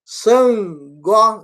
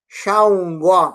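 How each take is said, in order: First: The word begins with a plain s sound. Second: The word begins with an sh sound. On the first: The speaker calls it wrong. "Eles estão dizendo San" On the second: The speaker calls it right. "S sinalizado embaixo vai dar a pronúncia do X"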